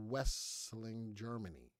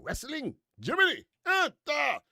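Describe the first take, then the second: First: Said in the usual way. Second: Put-on loud-edged, high-pitched comic German accent; mock German accent. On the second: Host clowning with a German town name, mock German accent. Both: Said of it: "That was my German accent".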